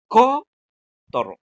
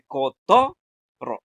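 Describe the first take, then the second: First: The stress is on the first syllable. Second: The stress is on the middle syllable. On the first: The speaker calls it wrong. "en la co es donde tiene que ca- recaer lo más fuerte" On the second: The speaker calls it right. "ponemos la fuerza en la to"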